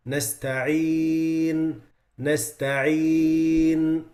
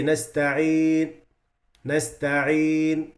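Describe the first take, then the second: First: Nasta'een with a held noon at the end; correct ghunna. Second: Nasta'een with the noon cut short, slowly; clipped noon. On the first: Teacher reciting the correct form. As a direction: hold the noon of nasta'een a little. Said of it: "You see the noon?". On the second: Teacher showing the short-noon mistake. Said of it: "like this". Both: Shown as a demonstration.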